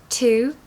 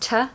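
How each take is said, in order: First: The vowel is a full oo sound. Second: The vowel is a weak uh sound.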